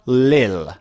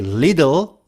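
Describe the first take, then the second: First: The middle sound is dropped entirely. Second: The middle sound is a soft d. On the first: "or lil" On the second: "native speakers would say little"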